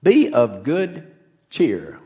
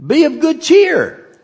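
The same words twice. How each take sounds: First: Be of good cheer said slowly, each word weighed; a preacher savouring the phrase, slow; slow emphasis. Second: High and loud, ringing out be of good cheer; lifting a frightened crowd's spirits, loud and high; rallying call. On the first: Shown as a demonstration. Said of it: "that's an interesting word". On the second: Acted. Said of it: "He says".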